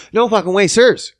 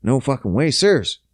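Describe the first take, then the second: First: Higher, punched "No fucking way, sirs"; emphatic refusal. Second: Said in the usual way. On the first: Acted. Man refuses limits on pleasures, emphatic higher refusal. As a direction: repeat "No fucking way, sirs" pitched up and firmer.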